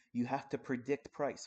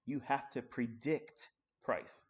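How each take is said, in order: First: Said in the usual way. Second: "have" leaned on, words spaced out slowly; slow emphatic repeat. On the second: Shown as a demonstration. Trader repeats the rule to viewers, slow and emphatic. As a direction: drive it home slowly, weight on "have".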